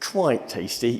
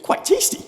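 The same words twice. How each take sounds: First: The tone is flat and unimpressed. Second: The tone is warm and enthusiastic. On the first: The food is only so-so. "sounds negative" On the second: The food is good. "That sounds good"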